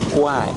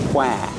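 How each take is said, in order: First: It is said with a Thai-style pronunciation. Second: It is said with a Thai-style pronunciation.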